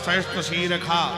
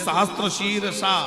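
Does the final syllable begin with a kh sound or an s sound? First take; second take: kh sound; s sound. First: The last syllable begins with a kh sound. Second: The last syllable begins with an s sound. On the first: This is how the word is recited in the Vedic mantra. "खा पढ़ा जाएगा" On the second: This is how the word is written. "लिखा तो वहां सा है"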